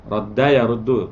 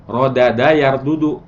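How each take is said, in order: First: "Rodda yaruddu" said short, doubled d run together; contracted form. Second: "Rodada yardudu" spelled out slowly, every syllable separate; full original form. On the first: Teacher showing students the contracted verb form, said crisply. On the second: Teacher showing students the uncontracted original form, said slowly. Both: Shown as a demonstration. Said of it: "Disingkat aja daripada yardudu".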